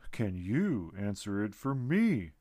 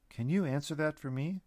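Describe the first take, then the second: First: Slow, mocking echo of the question; teasing retort. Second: Said in the usual way. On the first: A narrator's reading. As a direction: toss the question back, teasing. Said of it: "the bean retorted, laughing again".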